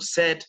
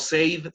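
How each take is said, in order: First: The vowel sounds like the vowel in 'bed'. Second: The vowel sounds like the vowel in 'say'. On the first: The speaker calls it right. "sino said" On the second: The speaker calls it wrong. "en presente say y en pasado no said"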